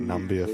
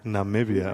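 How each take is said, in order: First: The name is said without the i after Nam. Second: The name is said with an i after Nam. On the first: The speaker calls it wrong. "we've just been calling it Nambia" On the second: The speaker calls it right. "You are supposed to pronounce the I"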